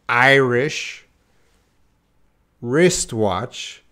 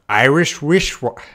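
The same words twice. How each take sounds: First: It is said slowly, the two words apart. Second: It is said fast, the words run together. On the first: "I can say them easy when they're separate" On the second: "But when I try fast"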